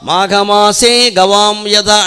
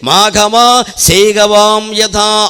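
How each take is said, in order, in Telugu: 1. maghamase తర్వాత వెంటనే విరామం ఉంది. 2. maghama తర్వాత వెంటనే విరామం ఉంది. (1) "మాఘమాసే గవాం యథ అంటే ఒక అర్థం వస్తుంది" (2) "మాఘమా అని ఆపి సేగవాం యథ అంటే ఒక అర్థం వస్తుంది"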